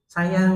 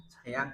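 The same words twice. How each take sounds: First: High, loud, emotional "Sayang"; tearful retold answer. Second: Quiet, gently rising prompt; soft retold question. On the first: Grieving father affirming love for his wife, emotional. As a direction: answer "Sayang" with voice raised, imitating upset father. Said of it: "Tambah nangis tuh jadi". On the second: Son asking his father about love for mother, soft. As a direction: ask "Sayang" softly, lifting the end.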